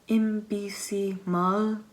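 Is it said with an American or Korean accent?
Korean. It is said with a Korean accent.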